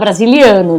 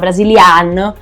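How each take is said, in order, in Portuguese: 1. O 'a' antes do n soa nasal. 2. O 'a' antes do n soa aberto. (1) "aquele som anasalado do an brasiliano, a gente tem aquela tendência a falar" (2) "aquele A aberto"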